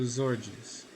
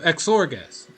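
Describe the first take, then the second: First: The name begins with a plain 'z' sound. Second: The name begins with an 'eks' sound. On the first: "Like you would with Xerxes?" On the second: "so it's a hard X"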